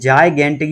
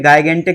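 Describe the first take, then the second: First: The word begins with a j sound and 'eye'. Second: The word begins with a hard g and 'eye'. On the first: The speaker calls it right. "इसे बोलते हैं जायगेंटिक" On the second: The speaker calls it wrong. "ये गिगेंटिक या गायगेंटिक नहीं है"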